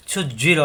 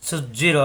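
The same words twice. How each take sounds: The two takes are said the same way.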